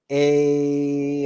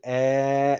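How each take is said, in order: First: The vowel glides, as in hey. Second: The vowel is short and open, as in get. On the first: "in Latin you would pronounce it a as in hey or way" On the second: "you can pronounce it eh as in get or fret"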